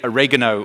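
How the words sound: It is said the American way. "You say"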